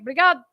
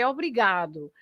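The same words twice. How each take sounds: First: The final vowel is reduced or dropped. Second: The final vowel is clearly pronounced as u. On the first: This is the casual everyday form. "lots of people say obrigado" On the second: This is the careful standard form. "the proper way of speaking"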